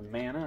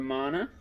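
First: Mana as MAN-uh; alternative pronunciation of Mana. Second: Mana as MAH-nuh; one pronunciation of Mana. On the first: Collector offering viewers another way to say Mana, MAN-uh. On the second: Collector reading out the title Secret of Mana, MAH-nuh. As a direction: say Mana with an open "ah". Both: Shown as a demonstration. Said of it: "however you wanna say it".

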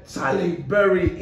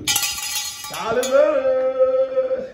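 First: Said in the usual way. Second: Long drawn-out name call. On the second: Shown as a demonstration. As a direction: stretch "Charlie Berry" out very slowly, higher, like announcing a star. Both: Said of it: "name repeated drawn out".

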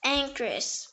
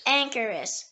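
First: Anchoress in two syllables, ANK-russ; alternative pronunciation. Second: Anchoress in three syllables, ANK-er-us; first pronunciation. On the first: Word lesson giving the other form, two-syllable pronunciation. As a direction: say anchoress with the middle vowel dropped. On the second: Word lesson giving the main form, three-syllable pronunciation. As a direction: say anchoress with the middle er sounded. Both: Shown as a demonstration. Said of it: "It can also be pronounced".

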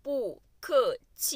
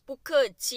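First: Syllable by syllable. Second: Said in the usual way. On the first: Shown as a demonstration. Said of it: "syllable drill in lesson". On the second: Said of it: "full take after drill".

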